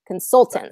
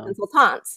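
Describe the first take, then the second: First: The stress is on the second syllable. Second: The stress is on the last syllable. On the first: The speaker calls it right. "we stress consultant, yeah. second syllable" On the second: The speaker calls it wrong. "instead of the last syllable"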